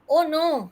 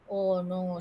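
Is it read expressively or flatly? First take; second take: expressively; flatly. First: It is read with lively expression. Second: It is read flatly, without tone change.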